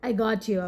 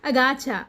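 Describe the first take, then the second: First: Got and you are said as separate words. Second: Got and you blend into one reduced word. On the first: "I got you அப்படின்னு அர்த்தம்"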